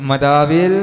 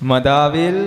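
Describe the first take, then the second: Both takes have the same delivery.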